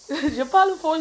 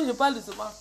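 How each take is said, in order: First: Speaking up. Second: Lower, softened voice; speaking softly. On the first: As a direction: voice a little raised. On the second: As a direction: drop down to a gentle, low voice. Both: Shown as a demonstration.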